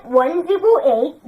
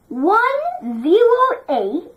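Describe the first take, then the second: First: Said in the usual way. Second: Slow, careful digits for the class; slow teacher demo; slow model reading. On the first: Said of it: "Everybody say that". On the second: Shown as a demonstration. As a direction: spell out each number slowly. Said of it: "teacher models for class".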